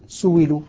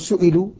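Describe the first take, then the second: First: The middle consonant is a w sound. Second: The middle consonant is a glottal stop. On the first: "أبدل الهمز المكسور بعد الضم واوا" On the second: "الهمز المكسور بعد الضم"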